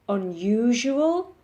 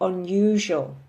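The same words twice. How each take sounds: First: The word is said with four syllables. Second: The word is said with three syllables. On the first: "It can be pronounced with four syllables" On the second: "or three"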